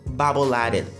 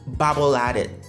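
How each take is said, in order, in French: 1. Les mots s'enchaînent en un seul bloc. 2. Les mots s'enchaînent en un seul bloc.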